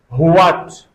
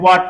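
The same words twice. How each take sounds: First: It begins with a breathy h before the w. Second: It begins with a plain w and no h. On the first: "phoneticized like Hua" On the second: "pronounce them normally"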